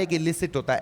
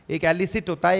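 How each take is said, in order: First: इलिसिट opening on a short "i"; contrast-ready "i" at the start of इलिसिट; "i" first vowel. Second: एलिसिट opening on "eh"; contrast-ready "e" at the start of एलिसिट; open first vowel. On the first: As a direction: say इलिसिट as "ih-li-sit". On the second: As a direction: say एलिसिट as "eh-li-sit". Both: Shown as a demonstration. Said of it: "अब इधर देखो".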